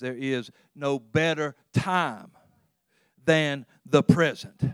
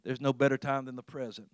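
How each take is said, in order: First: It is said with strong, deliberate emphasis. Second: It is said plainly, without extra emphasis.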